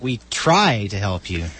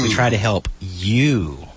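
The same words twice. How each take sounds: First: The stress is on "try". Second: The stress is on "you".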